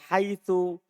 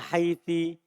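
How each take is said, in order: First: The word ends with an u vowel. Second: The word ends with an i vowel. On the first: "biddom dengan dibaca dhammah" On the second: "bil kasri"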